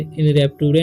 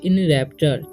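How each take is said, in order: First: The consonant before the ending is a 't' sound. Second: The consonant before the ending is a 'ch' sound. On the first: The speaker calls it wrong. "नहीं पढ़ना है" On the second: The speaker calls it right. "इसे पढ़ेंगे इन रैप्चर"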